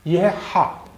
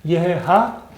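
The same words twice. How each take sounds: First: हा said with a throaty glottal h. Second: Said in the usual way. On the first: Shown as a demonstration. Teacher contrasts the throaty हा with the Hindi one. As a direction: push हा from the throat. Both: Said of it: "इस हे की आवाज़ है हा".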